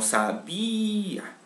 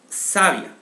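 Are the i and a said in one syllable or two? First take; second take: two; one. First: The i and a are in separate syllables. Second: The i and a blend into one syllable. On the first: The speaker calls it right. "sino sabía" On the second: The speaker calls it wrong. "Donde la I, A suenen juntas"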